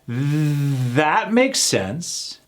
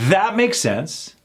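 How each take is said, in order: First: The phrase is said slowly and overdone. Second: The phrase is said at a quicker pace. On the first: "let's do this one slower" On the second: "Let's try it again a little more faster"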